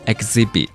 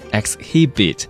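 First: The h sound is silent in the word. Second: The h sound is pronounced in the word. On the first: The speaker calls it right. "那个H 是不发音的，所以它叫做exhibit" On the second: The speaker calls it wrong. "不要看到这个单词的拼写方式就很自然的读成exhibit"

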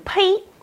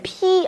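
First: The word is said in Beijing dialect pronunciation. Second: The word is said in standard Mandarin pronunciation. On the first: "我们北京话这个念披啊" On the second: "这个普通话念披啊"

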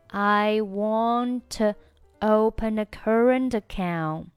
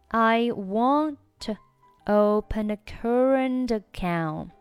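Both takes have the same delivery.

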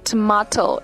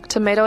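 First: It is said in a British accent. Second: It is said in an American accent.

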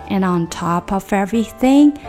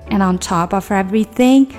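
The two takes are said the same way.

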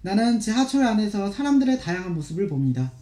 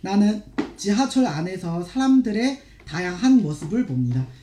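First: It is read quickly and smoothly. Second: It is read slowly.

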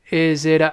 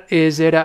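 The two takes are said the same way.

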